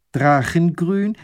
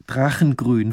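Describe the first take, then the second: First: "Drachengrün?" high, loud and slow, rising at the end; astonished question. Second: Said in the usual way. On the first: Acted. Lady querying the painter's colour, astonished "Drachengrün?". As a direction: echo "Drachengrün?" slowly in disbelief, lifting the pitch.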